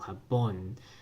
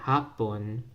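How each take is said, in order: First: The stress is on the last syllable. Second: The stress is on the first syllable. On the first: "the stress is on that last syllable" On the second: "the first word with the first stress on the ha"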